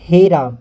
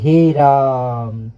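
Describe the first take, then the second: First: The vowel in Raam has ordinary long length. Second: The vowel in Raam is shouted and stretched out. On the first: It is a plain call or exclamation. "दीर्घ स्वर लगा, आ की मात्रा" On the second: Someone is calling out loudly from afar. "अच्छे से और चिल्लाते हैं ... आ की मात्रा जब लंबा समय तक खींचा गया"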